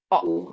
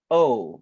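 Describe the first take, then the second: First: A plain o vowel with no glide. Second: The o vowel glides slightly toward u. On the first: "bahasa Indonesia adalah O" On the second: "In English, O. Jadi ada kayak U-nya sedikit"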